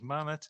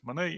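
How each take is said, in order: First: The name is pronounced a non-French way. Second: The name is pronounced the French way. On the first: The speaker calls it wrong. "and not as Manet" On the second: The speaker calls it right. "since we are uh, more or less in French speaking territory, uh, we will pronounce it as Monet"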